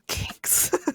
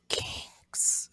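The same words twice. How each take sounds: First: The word is spoken aloud in full voice. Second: The word is whispered. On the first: It is announced openly to everyone. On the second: It is treated as a secret.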